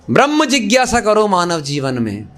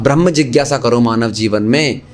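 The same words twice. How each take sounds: First: Brahma held long and pushed up, the rest falling away; emphatic stress on Brahma. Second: Brahma spoken low and level, no push; lower calm repeat. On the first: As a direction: lean hard on Brahma like a command. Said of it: "अब ब्रह्म जिज्ञासा करो मानव जीवन में". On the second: Preacher repeating his point to the audience, low and calm. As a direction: say it again, dropped low and settled. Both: Shown as a demonstration.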